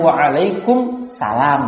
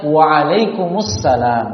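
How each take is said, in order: First: "Waalaikumsalam" pelan dengan nada naik di akhir, alif lam hilang; lafal yang salah. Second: "Waalaikumsalam" sangat pelan, "salam" dengan alif lam jelas; lafal yang benar. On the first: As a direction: contoh jawaban yang keliru. (jawaban salam yang salah) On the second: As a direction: ucapkan perlahan dengan "assalam". (jawaban salam yang benar) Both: Shown as a demonstration.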